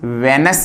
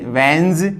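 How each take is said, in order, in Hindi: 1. इस अक्षर का अंत s ध्वनि से होता है। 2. इस अक्षर का अंत z ध्वनि से होता है। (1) "से नहीं बल्कि ज है, यहां इस वेनस नहीं"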